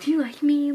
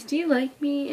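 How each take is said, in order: First: Louder, hopeful retold question; happy question. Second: Said in the usual way. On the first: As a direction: imitate him asking it happily. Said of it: "Like, in a happy way". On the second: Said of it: "I'm like".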